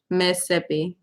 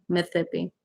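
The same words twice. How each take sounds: First: Said in the usual way. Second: "Mississippi" said as Miss-thippi, with a single TH; softer demo of "Mississippi" with one TH. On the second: Shown as a demonstration. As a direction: lisp the middle of "Mississippi" into a TH. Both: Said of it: "There's only one T H".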